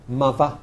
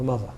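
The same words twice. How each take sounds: First: The middle consonant is a v sound. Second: The middle consonant is a th sound.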